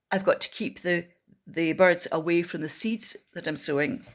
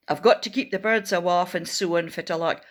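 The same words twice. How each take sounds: First: Said in the usual way. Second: Doric accent line said a bit faster; Scottish Doric farmer, brisk. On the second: Shown as a demonstration. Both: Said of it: "I wonder if you know what that means".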